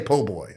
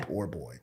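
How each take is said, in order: First: The r in the first word is dropped. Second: The r in the first word is pronounced. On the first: This is the everyday local way of saying it. "but I say po' boy" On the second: This is the formal way that matches the written name. "I don't say poor boy"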